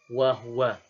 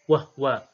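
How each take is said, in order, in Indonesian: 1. Huruf h diikuti vokal u. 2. Huruf h tidak diikuti vokal. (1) "bidhammil ha" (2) "bisukunil ha"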